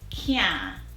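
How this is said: It is said in Jamaican with a nasal sound.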